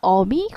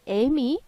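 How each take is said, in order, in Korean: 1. 첫 모음은 뒤에서 나는 'eo' 소리예요. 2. 첫 모음은 앞으로 나온 'ae' 소리예요.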